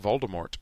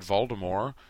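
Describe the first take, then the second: First: The name ends with an audible T sound. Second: The name ends with no T sound. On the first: This matches how the films say it. The speaker calls it wrong. "he started saying Voldemort to match up" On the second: This is how the narrator said it before the films. The speaker calls it right. "Jim Dale said Voldemort until the films came out"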